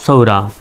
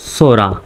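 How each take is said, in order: First: The first vowel glides like ou. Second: The first vowel is a plain o sound. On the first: This is the more standard way of saying it. "আরও সঠিক উচ্চারণ করতে চাইলে সৌরা বলবেন" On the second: This is the usual local way of saying it. "সোরা বললেও ভুল হবে না একেবারে"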